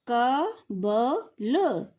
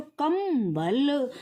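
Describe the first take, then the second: First: कबल stretched out very slowly as ka-bal; slow demo of कबल without the bindu; without the nasal. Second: कंबल stretched very slowly with a clear m before b, kam-bal; slow demo of कंबल with the nasal. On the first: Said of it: "इसके बाद बच्चों ये". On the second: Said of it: "अनुस्वार लगा देंगे तो क्या हो जाएगा". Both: Shown as a demonstration.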